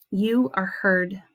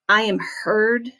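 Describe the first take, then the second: First: Slow, gentle affirmation spoken to them; affirming the listener. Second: Said to yourself as if taking it in; accepting it in your heart. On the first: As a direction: tell them slowly and tenderly that they are heard. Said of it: "this is what it would sound like". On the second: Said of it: "as though you're accepting it". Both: Shown as a demonstration.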